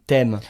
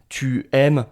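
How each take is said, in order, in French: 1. 'Tu' se réduit à un son t. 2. 'Tu' se prononce en entier devant le verbe. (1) "Je vais dire t'arrives, t'aimes" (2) "non, on ne va pas dire ça"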